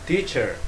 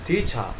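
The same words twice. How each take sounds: No difference in how they are said.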